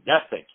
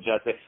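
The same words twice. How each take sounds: First: The name is said with a German pronunciation. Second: The name is said with an American pronunciation. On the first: "in Germany they say" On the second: "the way uh, American are pronouncing it"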